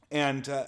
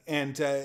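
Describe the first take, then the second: No difference in how they are said.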